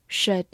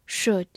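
First: "should" in its weak form, with a schwa; alternative pronunciation. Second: Said in the usual way. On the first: Shown as a demonstration. Teacher giving learners the other reading, "should" as shuhd. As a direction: say "should" as "shuhd", the vowel reduced. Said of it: "或者读作should". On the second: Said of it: "或者读作".

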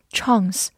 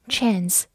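First: "chance" with a British long ah; British pronunciation. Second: "chance" with an American short a; American pronunciation. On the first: Teacher contrasting two accents for learners, British "chance" with broad ah. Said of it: "英式发音读作". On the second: Teacher contrasting two accents for learners, American "chance" with front a. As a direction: say "chance" the American way, vowel as in "cat". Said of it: "美式发音". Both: Shown as a demonstration.

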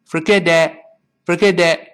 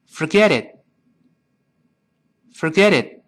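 First: "forget it" as for-geh-deh, final t missing; lazy-tongue error, "it" left open as deh; wrong open ending. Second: Quick "Forget it" as for-geh-dit, stopped short; tongue-tip held t. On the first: Teacher shows what won't do, "forget it" ending in open deh. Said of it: "这也不行". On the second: Teacher has students repeat, "Forget it" with final t held. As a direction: end "Forget it" with tongue up, no burst. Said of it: "舌尖顶上去". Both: Shown as a demonstration.

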